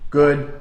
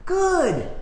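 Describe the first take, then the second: First: The word is said with low, calm energy. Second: The word is said with high, excited energy. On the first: The dog stays calm and waits. The speaker calls it right. "a thousand times that is them sitting calmly" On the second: The dog gets overexcited and jumps. The speaker calls it wrong. "a thousand times that is them already jumping"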